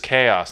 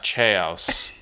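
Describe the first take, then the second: First: It is said as 'kay-oss', with a k sound. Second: It is said as 'chows', with a ch sound. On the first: The speaker calls it right. "The word is chaos" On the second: The speaker calls it wrong. "not chaos"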